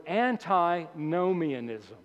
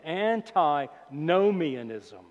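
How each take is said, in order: First: Said in the usual way. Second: Very slow, stretched-out "antinomianism"; real slowly. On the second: Shown as a demonstration. Preacher teaching a big word, saying "antinomianism" real slowly. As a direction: draw "antinomianism" out part by part for learners. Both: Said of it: "I'll say it again real slowly".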